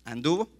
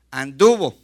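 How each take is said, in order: First: Doubtful rising check of the word "Anduvo"; "Anduvo" asked rising, checking the form; unsure correction. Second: "Anduvo" said much louder, with a falling tune; firm correction. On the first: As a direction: ask yourself "¿Anduvo?" questioningly. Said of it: "andó". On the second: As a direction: settle it: "Anduvo", loud and final. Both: Shown as a demonstration.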